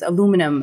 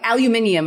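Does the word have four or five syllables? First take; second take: four; five. First: The word is said with four syllables, American style. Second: The word is said with five syllables, British style. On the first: The speaker calls it right. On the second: The speaker calls it wrong.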